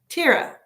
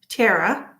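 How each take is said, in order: First: The name sounds like Tira, with a long i. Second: The name sounds like Tara, two syllables. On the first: "It's pronounced Tira" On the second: "number one, Tara"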